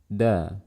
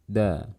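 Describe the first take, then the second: No difference in how they are said.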